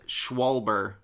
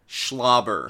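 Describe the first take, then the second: First: The name has a w sound after the sh. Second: The name has an l sound after the sh. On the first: This is the pronunciation the speaker had assumed. The speaker calls it wrong. "I always thought it was Schwalber" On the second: This is the intended pronunciation. The speaker calls it right. "To be pronounced Schlobber"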